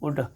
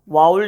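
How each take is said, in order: First: The L sound is silent. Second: The L sound is pronounced. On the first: The speaker calls it right. "एल जो है वो silent हो रहा है" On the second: The speaker calls it wrong. "वाउल्ड नहीं पढ़ना"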